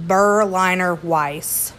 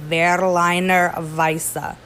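First: "Berliner Weiss" said the anglicized way like a truck brand, slow; mock the wrong "Weiss" with a flat English ending; wrong pronunciation. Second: "Berliner Weisse" slow and deliberate, German V, "vaisseh"; German pronunciation. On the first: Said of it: "it's not Berliner Weiss". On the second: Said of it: "Let me say it again". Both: Shown as a demonstration.

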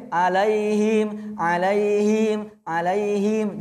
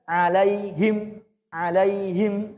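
First: "alaihim" drawn and swung slowly; wrong swaying pronunciation. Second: "alaihim" said steady without swaying; correct pronunciation. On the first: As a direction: demo the error: sway "alaihim". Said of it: "Jangan, Pak". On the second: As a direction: model the right "alaihim". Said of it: "Yang benar". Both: Shown as a demonstration.

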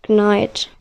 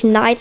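First: Knight with a hard K, knaɪt; K spoken. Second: Knight with a silent K, just naɪt. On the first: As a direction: sound the K at the start of Knight. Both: Shown as a demonstration. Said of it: "sondern mit K".

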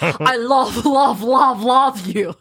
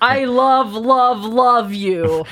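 First: Hammed-up Russian love declaration, breaking into laughter; Russian accent. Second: Book heroine's slightly odd declaration; lightly put-on voice, a bit lilting; odd character voice. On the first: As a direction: put on a playful Russian accent. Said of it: "I don't know why she's Russian". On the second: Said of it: "I don't know why she sounds like that".

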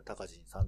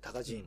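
First: 隆人さん in Tokyo intonation; Tokyo accent. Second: 隆人 in Kansai intonation; Kansai accent. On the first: Comparing regional accents, 隆人さん in Tokyo accent. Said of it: "例えば、東京の人がさ". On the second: Comparing regional accents, 隆人 in Kansai accent. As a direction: say 隆人 as Kansai people do. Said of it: "向こうの人は隆人って言うでしょ？". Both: Shown as a demonstration.

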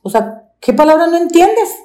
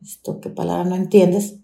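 First: Much higher, sneering "entiendes" with a rising end; scornful boss. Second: Repeating "entiendes" at her own pitch, incredulous; bitter echo. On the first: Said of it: "por eso le digo". (la patrona burlona, subiendo en "entiendes") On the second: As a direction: turn the boss's words over in disbelief, at your normal pitch. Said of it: "me dije". (repitiendo "entiendes" incrédula, en voz normal) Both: Retold or imitated.

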